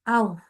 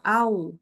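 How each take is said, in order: First: It is said with a breathy puff of air. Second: It is said plainly with no puff of air. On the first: The speaker calls it wrong. "Au, nggak begitu" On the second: The speaker calls it right. "tapi biasa aja au"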